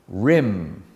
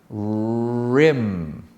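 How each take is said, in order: First: The opening R is said normally. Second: The opening R is strongly exaggerated. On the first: "without exaggerating the R at the beginning" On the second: "Exaggerate the R at the beginning"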